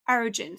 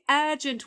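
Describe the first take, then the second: First: It is said in an American accent. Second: It is said in a British accent. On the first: "the American one with the R pronounced" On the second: "Urgent would be the British variety"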